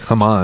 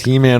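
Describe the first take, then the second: First: The first vowel sounds like 'ah'. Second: The first vowel sounds like 'ee'. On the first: The speaker calls it right. "in the Hebrew. It'd be like Haman" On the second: The speaker calls it wrong. "it's not He"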